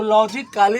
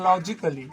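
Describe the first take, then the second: First: लॉजिकली misread as lo-ji-KAA-lee; wrong pronunciation. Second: लॉजिकली as lo-ji-kuh-lee; correct pronunciation. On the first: Teacher showing students what to avoid, लॉजिकली with "kaa-lee". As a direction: say लॉजिकली with a full long "kaa". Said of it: "नहीं पढ़ना है". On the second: Teacher modelling the rule, लॉजिकली with a light "kuh-lee". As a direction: keep the A in लॉजिकली short, almost silent. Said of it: "इसको पढ़ना है". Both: Shown as a demonstration.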